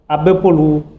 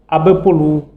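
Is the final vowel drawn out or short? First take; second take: drawn out; drawn out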